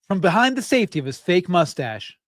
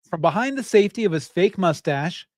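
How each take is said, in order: No difference in how they are said.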